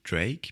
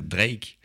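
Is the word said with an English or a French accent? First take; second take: English; French. First: It is said with an English accent. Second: It is said with a French accent. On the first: "je dis les mots en anglais avec un accent anglais" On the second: "En France, on va dire les mots anglais avec un accent français"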